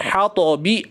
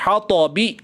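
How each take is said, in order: The two takes are said the same way.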